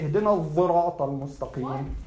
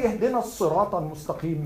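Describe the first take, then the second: First: الصراط with a voiced "dh/z" in place of "s"; Al-Kisa'i "dh" reading. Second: الصراط with an emphatic "s" sound; usual "s" reading. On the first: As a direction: pronounce الصراط as "adh-dhirat". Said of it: "You say". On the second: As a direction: pronounce الصراط as "as-sirat". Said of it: "you don't say". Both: Shown as a demonstration.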